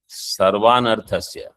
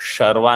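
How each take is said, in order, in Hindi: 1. शब्द की शुरुआत सादी दंत्य 's' ध्वनि से होती है। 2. शब्द की शुरुआत तालव्य 'sh' ध्वनि से होती है। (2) "शर्वा नहीं"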